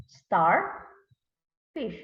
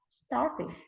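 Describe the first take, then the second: First: "star", a long pause, then "fish"; read by syllables. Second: Said in the usual way. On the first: Shown as a demonstration. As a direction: split "star, fish" into two separate beats. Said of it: "we are going to read by syllables". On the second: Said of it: "read it together".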